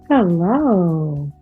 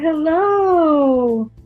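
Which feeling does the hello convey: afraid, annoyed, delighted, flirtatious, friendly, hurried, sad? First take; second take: flirtatious; delighted. First: It is said in a flirtatious tone. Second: It is said with delighted warmth. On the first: The speaker is romantically interested. "Sort of flirtatious" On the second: The speaker is glad the caller got in touch. "I'm very happy to hear from you"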